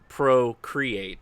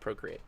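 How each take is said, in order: First: The word is said slowly and carefully. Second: The word is said quickly, run together.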